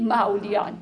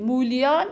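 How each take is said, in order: First: مولیان said as "mowlayān", rhyming with پهلوان; مولیان with fatha on the first letter, silent vav, fatha on lam; correct pronunciation. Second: مولیان said the common way, rhyming with هوریان; مولیان as most people say it, like هوریان; common wrong pronunciation. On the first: Teacher giving the scholar's pronunciation like پهلوان. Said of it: "میگه مثل پهلوان باید بگید". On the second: Teacher showing the common mispronunciation, rhyming with هوریان. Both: Shown as a demonstration.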